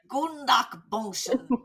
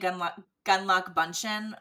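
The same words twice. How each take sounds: First: The name is said with a German-style pronunciation. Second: The name is said with an English-style pronunciation. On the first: This is the pronunciation the speaker prefers. "I'm going with the German pronunciation" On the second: This is how the staff at the winery said it. "They were saying Gunlach Bunchen"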